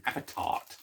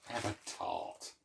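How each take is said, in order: First: Said in the usual way. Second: Cheeky whisper. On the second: Shown as a demonstration. Offering a tart to viewers in a cheeky whisper. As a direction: Have a tart whispered with a saucy lilt. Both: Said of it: "That's a Benny Hill sort of thing".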